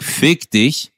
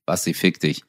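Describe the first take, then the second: First: "Fick dich" hit hard and firmly; "Fick dich" as a forceful, pointed curse; emphatic insult. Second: Low, soft and offhand; understated, lowered-voice brush-off; casual mild insult. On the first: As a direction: punch both words of "Fick dich". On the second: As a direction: toss the curse away quietly. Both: Shown as a demonstration. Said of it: "es geht um die Betonung".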